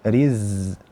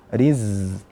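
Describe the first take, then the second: No difference in how they are said.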